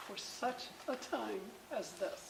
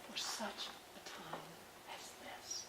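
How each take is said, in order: First: Said in the usual way. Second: Hushed, fading to a whisper. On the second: Shown as a demonstration. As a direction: drop much softer, last words breathed. Same verse quoted twice.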